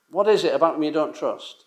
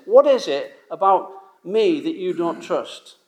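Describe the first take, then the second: First: Said in the usual way. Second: Slow, searching question in God's voice; lightly voiced God, slowed and pleading; God asking gently. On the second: Preacher imagines God asking his doubting people, slow and searching. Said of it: "imagine God saying".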